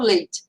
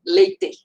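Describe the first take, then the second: First: "leite" said with the final E weakened away; final E dropped. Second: "leite" drawn out high with a full, clear E at the end; final E pronounced. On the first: Mother quoting her own accent her son corrects, final E dropped. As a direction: say "leite" in your accent, swallowing the last E. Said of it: "não pronuncio o E final". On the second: Mother showing the pronunciation her son expects, final E fully sounded. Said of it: "não pronuncio o E final das palavras". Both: Shown as a demonstration.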